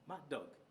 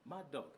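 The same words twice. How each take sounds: First: The two d sounds merge into one. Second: The two d sounds merge into one.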